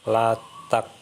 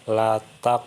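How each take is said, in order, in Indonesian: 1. Huruf q di akhir ditahan tanpa memantul. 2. Huruf q di akhir dilepas dengan memantul. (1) "bukan la taq" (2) "dibaca memantul"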